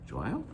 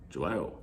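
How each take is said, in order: First: The voice rises at the end. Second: The voice falls or stays level at the end. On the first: It asks whether the listener likes it. "putting your voice up, you make it a question" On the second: It states that something is good. "a statement"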